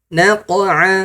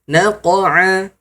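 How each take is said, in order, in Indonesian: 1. Letupan setelah q dilepas sepenuhnya. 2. Letupan setelah q dilepas sepenuhnya.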